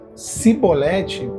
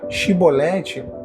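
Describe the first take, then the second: First: The word begins with an 's' sound. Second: The word begins with an 'sh' sound. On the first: It reveals the speaker's outsider origin. "eles falavam si" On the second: It marks the speaker as a true insider. "é a pronúncia do quebrantado"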